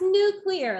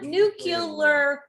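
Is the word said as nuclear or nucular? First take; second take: nuclear; nucular. First: The middle is said as clee-ar. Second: The middle is said as cue-lar. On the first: The speaker calls it right. "it's nucleus because it's nuclear" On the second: The speaker calls it wrong. "It's not nuclear weapon"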